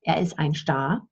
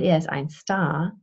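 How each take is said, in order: First: Star begins with a sh sound. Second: Star begins with a plain s sound. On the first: "use the same pronunciation for the bird and the, the movie star" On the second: "most Germans pronounce it as ein Star"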